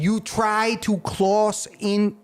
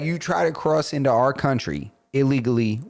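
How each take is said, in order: First: Slipping into a mock Asian accent, higher and slow; a clumsy mock Asian accent on the Polish leader's words; put-on Asian accent. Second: Said in the usual way. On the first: Podcaster retelling the Polish leader's threat, mock Asian accent. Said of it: "I don't know why I made him Asian". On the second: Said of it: "No, he's like".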